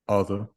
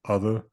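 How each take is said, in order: First: The final vowel is a plain schwa, no r. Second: The final vowel has a slight r colouring. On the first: The speaker calls it right. "so just be like a schwa" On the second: The speaker calls it wrong. "this tiniest bit of roticity at the end"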